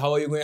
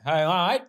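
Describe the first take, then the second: First: Each word of the phrase is said separately. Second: The phrase is squeezed fast into two syllables. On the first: The speaker calls it wrong. "असं नाही होत" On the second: The speaker calls it right. "Fast करायचं, हाय हाय एवढंच म्हणतात"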